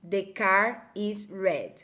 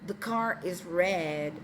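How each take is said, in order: First: It has a Brazilian Portuguese accent without R-coloring. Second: It has a native English accent with R-colored vowel. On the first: The speaker calls it wrong. "ele migrou para a língua mãe" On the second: The speaker calls it right. "um áudio de um nativo dizendo"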